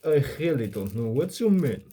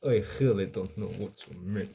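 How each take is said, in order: First: Higher-pitched, exaggerated Russian accent. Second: Russian accent. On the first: Showing chat how English sounds in a Russian accent, first botched Russian accent. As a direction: lay on a thick Russian accent, swooping in pitch. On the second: Retrying the line for chat so it sounds Russian, restrained Russian accent. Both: Shown as a demonstration. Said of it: "speak English in a Russian accent".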